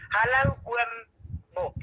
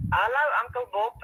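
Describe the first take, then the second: First: "Oom" said the Afrikaans way, a long rounded o, like "oo-um"; Afrikaans greeting. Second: Said in the usual way. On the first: Shown as a demonstration. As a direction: greet Uncle Bob as "Oom" with Afrikaans vowels. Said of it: "then I say in Afrikaans". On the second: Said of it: "if I say".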